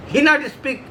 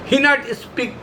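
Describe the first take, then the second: No difference in how they are said.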